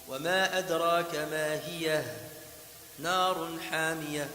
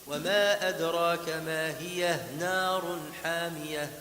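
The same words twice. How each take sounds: First: There is a stop after the word hiyah. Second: It runs on without a stop after hiyah. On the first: "si on s'arrête" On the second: "Si on continue"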